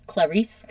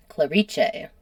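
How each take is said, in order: First: Clarice said as kluh-REESE; pronounced as spelled. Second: Clarice said as klah-REE-chay; Italian pronunciation. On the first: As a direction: say Clarice the English way, ending in an S sound. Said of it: "it's just spelled Clarice". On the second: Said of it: "it's pronounced in Italian". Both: Shown as a demonstration.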